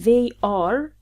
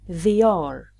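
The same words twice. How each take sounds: First: The two words are said separately, unlinked. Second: The words are linked with a y glide. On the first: The speaker calls it wrong. "We don't say they are" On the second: The speaker calls it right. "simply they are"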